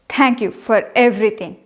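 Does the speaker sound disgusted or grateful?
disgusted. It is said in a disgusted tone. The speaker is actually displeased. "You can make out that I am disgusted"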